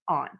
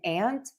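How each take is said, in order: First: The word sounds different from 'ant'. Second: The word sounds exactly like 'ant'. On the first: "or are they pronounced different" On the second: "are these words pronounced the same"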